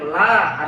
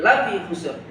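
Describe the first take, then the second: First: The vowel in la is held long. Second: The vowel in la is short. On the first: It means no. "Ketika dibaca panjang la artinya tidak" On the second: It means truly, as emphasis. "Tapi ketika dibaca pendek"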